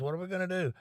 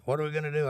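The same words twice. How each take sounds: First: Retold cousin frets, voice climbing high; higher mock panic. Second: Imitating a panicking cousin, a touch higher; half-hearted retold alarm; mock panic. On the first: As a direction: imitate the cousin's rising alarm. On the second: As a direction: cousin stuck out of gas, lightly panicking. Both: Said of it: "He starts panicking".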